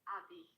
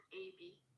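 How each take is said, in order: First: The name is said as one word. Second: The name is said as two letters. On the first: The speaker calls it right. "it's Abby" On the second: The speaker calls it wrong. "not A B"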